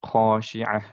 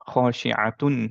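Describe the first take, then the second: First: The word ends with a soft 'h' sound. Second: The word ends with a full 'tun' ending. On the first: The reciter stops at this word. "যেহেতু থেমে যাচ্ছি ... এর জন্য হচ্ছে খাশিআহ" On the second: The reciter keeps going without stopping. "খাশিআতুন পড়তাম, রাইট? যদি কন্টিনিউ করতাম"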